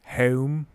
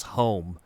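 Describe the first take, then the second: First: "Home" with a Mid-Atlantic vowel; Mid-Atlantic accent. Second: Said in the usual way. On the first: Shown as a demonstration. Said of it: "That's a Mid-Atlantic accent right there". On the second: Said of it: "ask somebody pr-, to pronounce home".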